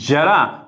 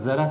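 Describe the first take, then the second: First: The first consonant is palatal, tongue further back. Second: The first consonant is dental, tongue at the teeth. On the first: It means old age. "मग हा झाला तालव्य उच्चाराचा" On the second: It means a little. "म्हणजे याचा उच्चार झाला दंता"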